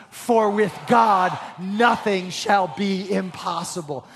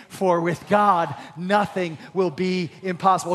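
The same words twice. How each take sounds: First: Slow, stronger proclamation; louder. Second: Said in the usual way. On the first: Shown as a demonstration. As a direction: declare it boldly to the congregation. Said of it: "Say it louder". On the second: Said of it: "Say that with me today".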